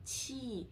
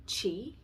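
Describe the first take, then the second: First: Qi with flat tongue and flat lips, aspirated; Mandarin qi. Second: Qi as English chee, tongue curled, voiced; English Qi, rounded ch; English chi. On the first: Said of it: "in Chinese". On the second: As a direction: say Qi the English way, lips out. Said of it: "in English". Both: Shown as a demonstration.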